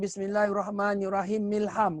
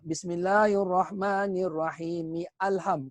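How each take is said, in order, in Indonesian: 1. M akhir langsung menyambung ke kata berikutnya. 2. Kata berikutnya mulai baru dengan bunyi a yang jelas. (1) "Kerana amda amda wasal" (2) "Kalau kita baca wasal, dia akan baca"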